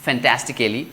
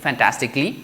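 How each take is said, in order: First: The ending is said fully as cal-ly. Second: The ending is reduced to one syllable, clee. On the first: The speaker calls it wrong. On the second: The speaker calls it right.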